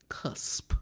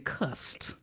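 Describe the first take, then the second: First: The word ends with a 'p' sound. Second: The word ends with a 't' sound. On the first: The speaker calls it right. "We talking about cusp, C U S P" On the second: The speaker calls it wrong. "I didn't say cust, C U S T, like everybody like to mispronounce"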